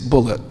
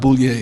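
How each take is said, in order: First: The name ends in a short 'lit' sound. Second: The name ends in a French-like 'lee-ay' sound. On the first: The speaker calls it right. "it's Bullitt" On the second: The speaker calls it wrong. "my name's not Boulier"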